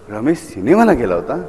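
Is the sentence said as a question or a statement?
question. It is said as a question.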